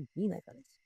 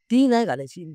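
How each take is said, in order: First: "ती नाही घालायची" repeated much softer, almost under the breath; quiet repeat. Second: Said in the usual way. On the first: Shown as a demonstration. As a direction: echo "ती नाही घालायची" softly to yourself. ("ती नाही घालायची" हळू आवाजात पुन्हा)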